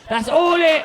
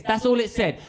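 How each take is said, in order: First: Higher, loud repeat; emphatic build-up. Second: Said in the usual way. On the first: Acted. Comedian building to the one-word message, loud and emphatic. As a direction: belt it to set up the punchline.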